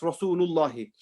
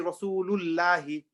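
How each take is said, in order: First: The L in Allah sounds heavy and full. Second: The L in Allah sounds light and thin. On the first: The speaker calls it right. "it's Rasulullahi" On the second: The speaker calls it wrong. "We don't say Rasulullahi"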